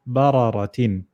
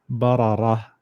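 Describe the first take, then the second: First: The word ends with a final 'tin' syllable. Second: The word ends without the final 'tin' syllable. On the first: The reader continues on without stopping. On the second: The reader stops on this word.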